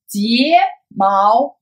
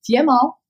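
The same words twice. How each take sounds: First: 睫毛 drawn out with both syllables held apart; slow demonstration. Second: Said in the usual way. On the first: Shown as a demonstration. Teacher modelling the eyelash word, slow demonstration. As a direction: say 睫毛 slowly for learners. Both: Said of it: "I speak normal speed".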